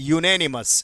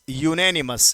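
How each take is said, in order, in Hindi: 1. शब्द की शुरुआत 'you' ध्वनि से होती है। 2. शब्द की शुरुआत 'you' ध्वनि से होती है।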